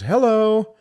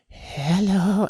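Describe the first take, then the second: First: A plain, ordinary greeting. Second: A strange, timid, sheepish greeting.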